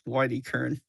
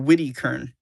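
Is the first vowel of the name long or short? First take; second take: long; short. First: The first vowel is a long 'eye' sound. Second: The first vowel is a short 'i' sound. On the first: "The first way ... Hard eye" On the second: "the second way ... soft eye"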